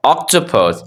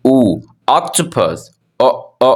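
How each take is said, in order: First: Said in the usual way. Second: "octopus" drawn out very slowly; slow phonics demo. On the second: Shown as a demonstration. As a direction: stretch out "O, octopus" for the class. ("octopus" बहुत धीरे खींचकर) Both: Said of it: "हम फिलहाल एक पढ़ लेते हैं".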